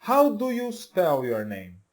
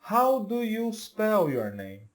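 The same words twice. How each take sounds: First: Slow, clear English model sentence. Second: Slow, clear second take of the question; slow repeat of the model. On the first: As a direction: say it slowly for learners to copy. (frase modelo devagar) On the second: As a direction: repeat it slowly for learners to copy. (repetição lenta e clara) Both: Shown as a demonstration. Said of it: "Então, olha só".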